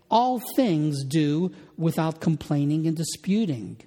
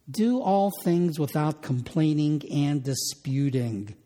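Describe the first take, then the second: First: All things put first and stressed, rest falls away. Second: Said in the usual way. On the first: Shown as a demonstration. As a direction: lean on All things at the start. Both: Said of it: "the emphasis is on the word all things".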